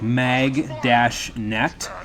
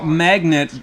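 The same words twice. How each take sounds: First: It is split, with net said separately. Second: It is said as one smooth ordinary word. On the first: It means a kind of net. The speaker calls it right. "like mag-net. So it's a net" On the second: It means an ordinary magnet. The speaker calls it wrong. "but not magnet"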